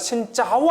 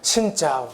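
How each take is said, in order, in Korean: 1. 단어 chao는 높고 올라가는 성조다. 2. 단어 chao는 낮고 떨어지는 성조다. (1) "짜오는 죽이에요" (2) "신짜오 해야 됩니다"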